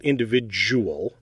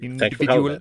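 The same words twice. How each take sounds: First: The middle is said with a 'j' sound. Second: The middle is said with a clear 'd' sound. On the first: The speaker calls it wrong. "It's not individual. There is no j" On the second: The speaker calls it right. "It's a individual"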